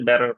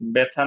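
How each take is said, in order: First: The middle consonant is a soft flap. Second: The middle consonant is a crisp t sound. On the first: "আমেরিকা করলে ... ব্যারর বলতে হবে" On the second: "আমেরিকা করলে বেছা না বলে"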